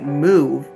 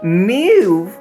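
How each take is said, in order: First: The word is said with a normal mouth shape. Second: The word is said with an altered mouth shape.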